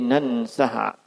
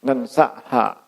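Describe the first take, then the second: First: It starts with 'a' and has a glottal stop. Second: The same.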